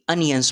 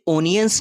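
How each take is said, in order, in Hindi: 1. पहला स्वर 'uh' जैसा सुनाई देता है। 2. पहला स्वर 'oh' जैसा सुनाई देता है। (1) "बल्कि अनियंस प्रोनाउंस करेंगे" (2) "आप इसे ओनियंस नहीं"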